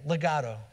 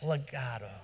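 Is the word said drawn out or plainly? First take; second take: plainly; drawn out. First: The word is said plainly and quickly. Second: The word is said slowly with a smooth flow. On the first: The speaker calls it wrong. "Say it with me" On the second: The speaker calls it right. "you can say it a little more eloquently"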